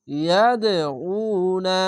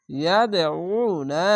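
First: ইয়াদউনা with a thick squeezed-throat আইন; slow recited ইয়াদউনা, আইন thick; heavy throat ain. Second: ইয়াদউনা slow, আইন thick and vowel stretched; slow tajweed ইয়াদউনা; recited with madd. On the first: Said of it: "আইনটিকে মোটা করে গলা চিপে পড়বেন". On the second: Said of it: "আলিফ টেনে পড়বেন". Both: Shown as a demonstration.

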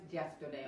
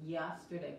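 First: YESTERDAY as "jesterday", teeth together; wrong J sound. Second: YESTERDAY with a smooth Y, teeth apart; correct Y sound. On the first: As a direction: mispronounce the Y of YESTERDAY as an English J. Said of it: "no es yesterday". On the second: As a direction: correct YESTERDAY, gliding into it without any J. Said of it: "Es yesterday, por nada se se juntan los dientes". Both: Shown as a demonstration.

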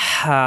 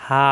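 First: "হা" on a rush of hot air from a tight throat; hissing, pressed "হা"; warm-breath sound. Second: "হা" open and free, without throat friction; plain open-mouthed "হা". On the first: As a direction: squeeze mid-throat and breathe out "হা". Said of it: "গরম বাতাসের সাহায্যে উচ্চারণ". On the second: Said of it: "হা মুখ খোলা থাকবে". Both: Shown as a demonstration.

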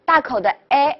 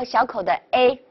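First: "A" as an open eh; big-mouth A. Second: "A" as a closed ay; small-mouth A. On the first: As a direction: open the mouth wide on "A", like French è. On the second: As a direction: narrow the mouth on "A", like French é. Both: Shown as a demonstration. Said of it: "大口的A和小口的A".

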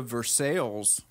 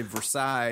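First: Versailles said as ver-SALES; anglicised Versailles, rhyming with sales; Kentucky pronunciation. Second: Versailles said as ver-SIGH; French-style Versailles with silent L's; standard pronunciation. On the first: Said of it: "Kentucky's got a lot of those". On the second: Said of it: "obviously Versailles, anywhere else". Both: Shown as a demonstration.

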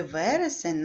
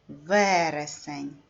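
First: Said in the usual way. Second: Вересень with a long, stressed first syllable. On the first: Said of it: "наголошений перший склад". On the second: Shown as a demonstration. Teacher showing pupils the stressed syllable, first syllable of Вересень stretched. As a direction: draw out and hit the first syllable of Вересень, slowly. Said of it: "наголошений перший склад «в»".

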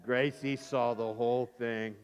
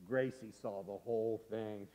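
First: Low, slow deliberate narration; slow, weighty reveal. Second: Soft, low ominous narration; hushed reveal. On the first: Storyteller repeats the reveal for effect, slow and weighty. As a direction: spell out the bad news slowly. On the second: Storyteller reveals sister witnessed it all, hushed. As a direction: let the secret out quietly. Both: A narrator's reading.

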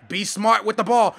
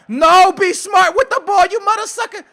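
First: Said in the usual way. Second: Loud, high scolding; exasperated shout. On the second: Real, not acted. Gamer scolds own player for risking the ball, exasperated shout. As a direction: yell it at a careless player.

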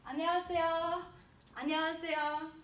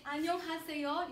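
First: 안녕하세요 run together quickly, the h dropped, louder; smooth and fast. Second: 안녕하세요 with each syllable fully sounded; every sound pronounced. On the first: Teacher shows students the natural hello, 안녕하세요 quick and run together. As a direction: slur 안녕하세요 into one fast, fluent word. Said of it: "as smooth and fast as possible". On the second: Teacher contrasts the textbook hello, 안녕하세요 with every syllable pronounced. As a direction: say 안녕하세요 carefully, keeping the h of 하. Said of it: "So instead of saying". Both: Shown as a demonstration.

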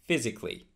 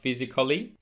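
First: PHYSICALLY in three syllables, "FIZ-ik-lee"; correct physically. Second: PHYSICALLY in four syllables, "fi-zi-kuh-lee"; mispronounced physically. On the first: Teacher modelling physically for learners, A left silent. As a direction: drop the A after C in "physically". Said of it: "it is not pronounced". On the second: Teacher showing the mistake, physically with A sounded. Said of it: "that A after C". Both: Shown as a demonstration.

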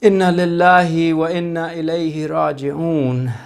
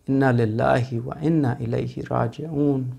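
First: Said in the usual way. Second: "Inna lillahi wa inna ilayhi raji'un" murmured much softer and lower; hushed recitation. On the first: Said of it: "first recitation, fuller". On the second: Real, not acted. Preacher repeating the verse in a hushed mourning tone. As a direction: sink into a grieving hush on "Inna lillahi". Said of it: "second recitation, hushed".

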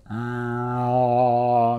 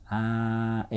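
First: Long "aah" swelling louder into a big hollow space; wide English-style resonance. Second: Held "aah" with a cramped mouth space; narrow Japanese-style vowel. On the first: Coach demonstrates the wider English space, loud resonant "aah". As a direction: open up inside and let "aah" boom. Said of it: "空間が広くなって". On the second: Coach exaggerates how Japanese singers sound, shallow narrow "aah". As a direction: keep the "aah" shallow and squashed. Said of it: "大げさに言うと". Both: Shown as a demonstration.

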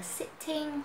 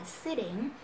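First: First "sitting" with a crisp aspirated t; clear T variant. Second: "sitting" with a soft flapped t; American T variant. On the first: Teacher offers learners one option, "sitting" with clear t. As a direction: say "sitting" as sit-ting, t sounded. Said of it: "có thể đọc là sitting hoặc là sitting". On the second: Teacher offers learners the other option, "sitting" with tapped t. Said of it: "theo giọng Mỹ thì mình đọc là sitting". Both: Shown as a demonstration.

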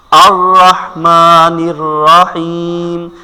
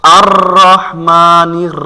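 First: Slow chanted আর রহমানির রহিম with controlled r; melodic, measured Quran recitation; correct recitation example. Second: আর রহমানির with r trilled like an engine; slow recitation with long buzzing trills; faulty over-rolled r. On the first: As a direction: recite with long vowels and no rattling r. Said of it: "আমি একটা উদাহরণ দিয়ে শোনাই". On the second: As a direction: rattle every r in আর রহমানির. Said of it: "গাড়ি চালান হবে". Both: Shown as a demonstration.

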